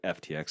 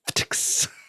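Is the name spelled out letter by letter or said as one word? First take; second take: letter by letter; one word. First: It is spelled out as three separate letters. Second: It is said as a single blended word. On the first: "I'm not trading on" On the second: "without using the individual letters"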